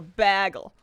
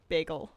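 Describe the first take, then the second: First: The first syllable sounds like 'bag'. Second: The first syllable does not sound like 'bag'. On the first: This is how some other people say it. "like they're gonna get a bag of bagels" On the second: This is the speaker's own pronunciation. "I say bagel"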